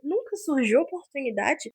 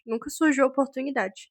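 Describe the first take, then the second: First: It is said in a high-pitched voice. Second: It is said in a normal voice.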